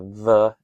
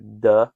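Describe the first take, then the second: First: The consonant is a soft th sound. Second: The consonant is a hard d sound. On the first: The speaker calls it right. "I actually kind of prefer to pronounce it as a the" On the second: The speaker calls it wrong. "as opposed to a duh"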